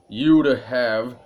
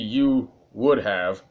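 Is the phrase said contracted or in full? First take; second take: contracted; in full. First: The first two words are contracted into one. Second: All three words are said in full. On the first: The speaker calls it right. "I normally say it you'd have" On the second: The speaker calls it wrong. "that's so weird to say"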